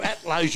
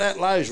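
First: "At Lowe's" with a clear "At" in front, falling; correcting the slogan. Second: "At Lowe's" called out loud, both words punched; yelled slogan. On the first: Host correcting barman Reggie's version, stressing "At". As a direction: stress that "At" belongs there. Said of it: "No, "At Lowe's," you imbecile". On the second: Host showing barman Reggie how to yell the ad line, loud. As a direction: shout "At Lowe's" like an ad tagline. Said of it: "You just yell out". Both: Shown as a demonstration.

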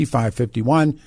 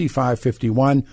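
The two takes are said the same way.

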